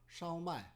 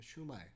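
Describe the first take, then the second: First: The first syllable is a gliding 'shao' sound. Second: The first syllable is a plain 'shoo' sound. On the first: The speaker calls it right. "정확한 발음은 샤오마이입니다" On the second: The speaker calls it wrong. "이거를 슈마이라고 적어놨더라고요"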